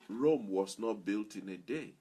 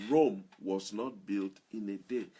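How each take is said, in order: Both takes have the same delivery.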